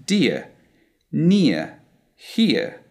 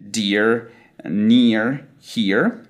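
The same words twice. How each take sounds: First: Dear, near, here each ending in soft uh; schwa for R. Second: Dear, near, here each ending in R; American R. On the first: Teacher showing how we pronounce them, schwa for R. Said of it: "The letter R is replaced by a soft schwa". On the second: Teacher listing words with E plus R, American R. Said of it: "E connected to an R". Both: Shown as a demonstration.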